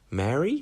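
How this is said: It is said with a questioning intonation. It asks something. "you say Mary to question"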